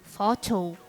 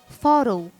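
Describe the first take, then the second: First: It is said in a British accent. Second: It is said in an American accent. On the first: "Britânico" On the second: "Foto no inglês americano"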